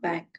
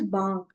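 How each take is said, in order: First: It is pronounced the English way. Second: It is pronounced the German way. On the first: The speaker calls it wrong. "and not bank" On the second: The speaker calls it right. "the German pro- pronunciation is bank"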